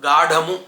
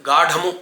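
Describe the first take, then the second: The two takes are said the same way.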